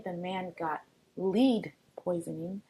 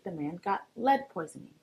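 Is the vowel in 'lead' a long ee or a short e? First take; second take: long ee; short e. First: The vowel in lead is a long ee. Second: The vowel in lead is a short e. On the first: The speaker calls it wrong. "you wouldn't say" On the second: The speaker calls it right. "You would say"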